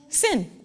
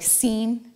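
First: The vowel is short, like in 'sin'. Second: The vowel is long, like in 'seen'. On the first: This is how the French say the name. "but they actually pronounce it" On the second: This is how Americans say the name. "here in the United States, they would call it like Seen"

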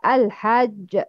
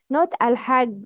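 First: The final j is doubled with a bounce. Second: The final j is weak without a bounce. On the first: The speaker calls it right. "It's pronounced with Shidda and Kalkala" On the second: The speaker calls it wrong.

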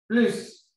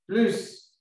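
The two takes are said the same way.

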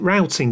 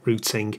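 First: The word is said with a non-British pronunciation. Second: The word is said with a British pronunciation. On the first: "You might pronounce it routing" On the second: "here in the UK, we pronounce it routing"

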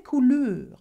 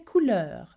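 First: The vowel sound is closed. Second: The vowel sound is open. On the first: The speaker calls it wrong. "we don't say couleur" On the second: The speaker calls it right. "The sound is certainly more open"

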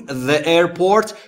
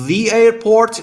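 First: The word 'the' is said as 'thuh'. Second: The word 'the' is said as 'thee'. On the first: The speaker calls it wrong. "نگفتیم the airport" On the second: The speaker calls it right. "چرا گفتیم the airport"

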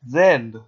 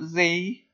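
First: The letter name is said as zed. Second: The letter name is said as zee. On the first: The speaker calls it right. "did you notice how I said it?" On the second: The speaker calls it wrong. "Not Z"

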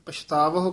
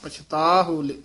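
First: A 'v' sound is inserted before the last syllable. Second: No 'v' sound comes before the last syllable. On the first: The speaker calls it wrong. "ਕਈ ਕਹਿ ਜਾਂਦੇ ਨੇ" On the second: The speaker calls it right. "ਪਛਤਾਹੁ ਪਾਠ ਹੈ"

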